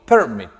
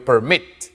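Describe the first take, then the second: First: The stress is on the first syllable. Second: The stress is on the last syllable. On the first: The speaker calls it wrong. "Yo no digo permit" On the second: The speaker calls it right. "la mayor fuerza de voz está al final"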